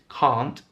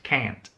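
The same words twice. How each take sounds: First: It is said in a British accent. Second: It is said in an American accent. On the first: "the negative in British English is can't" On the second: "The negative in American English is can't"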